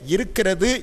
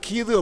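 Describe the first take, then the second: First: The full form is said with five syllables. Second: A heavily reduced form is said with two syllables. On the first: This is how it is said in Tirunelveli. "திருநெல்வேலியிலே இருக்கிறது என்று சொல்லுகிறார்கள்" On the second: This is how it is said in Chennai. "சென்னைக்கு சென்று விட்டால் கீது அப்படிங்கிறாங்க"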